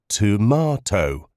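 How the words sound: It is said with a British pronunciation. "as most British people do"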